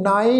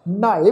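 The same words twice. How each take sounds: First: ਨਾਏ with a light n and no h; unweighted n straight into the vowel of ਨਾਏ; plain n, no h. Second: ਨਹਾਏ opening on a breathed nh; weight the n of ਨਹਾਏ with a short h; half h added. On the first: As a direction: say ਨਾਏ as bare naa-e. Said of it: "ਇਹਨੂੰ ਨਾਏ ਨਹੀਂ ਪੜ੍ਹਨਾ". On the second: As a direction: say ਨਹਾਏ as nhaa-e. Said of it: "ਨਹਾਏ pronounce ਕਰਾਂਗੇ". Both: Shown as a demonstration.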